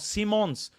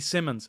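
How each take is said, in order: First: The first syllable has a long 'see' sound. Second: The first syllable has a short 'sim' sound. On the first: The speaker calls it right. "see as in the seeing with your eyes, and Mons like Mon" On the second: The speaker calls it wrong. "what was I calling him?"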